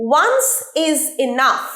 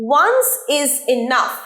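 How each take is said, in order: No difference in how they are said.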